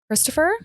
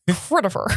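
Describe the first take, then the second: First: The name is said with a clear 's' sound. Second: The name is said without the 's' sound. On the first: The speaker calls it wrong. "You said it wrong" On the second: The speaker calls it right. "It's Critifer"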